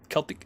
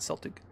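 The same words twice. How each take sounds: First: The word begins with a hard k sound. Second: The word begins with a soft s sound. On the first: This is the corrected pronunciation. The speaker calls it right. "you're right. Celtic" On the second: This is the basketball team's pronunciation. The speaker calls it wrong. "not Celtic ... because I do watch basketball. The Celtics"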